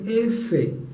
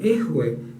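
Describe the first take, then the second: First: The letter is said with an f sound. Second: The letter is said with a breathy h sound. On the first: The speaker calls it right. "sino digan F" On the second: The speaker calls it wrong. "no digan ejue"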